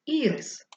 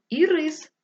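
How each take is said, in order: First: Ірис stressed on the first syllable, Í-rys. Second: Ірис stressed on the second syllable, i-RÝS; stress on last syllable. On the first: Teacher showing the flower's name, first-syllable stress. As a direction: hit the first vowel of ірис. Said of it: "поставивши наголос на перший склад". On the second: Teacher showing the candy's name, second-syllable stress. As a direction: hit the second vowel of ірис. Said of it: "ми можемо прочитати це слово". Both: Shown as a demonstration.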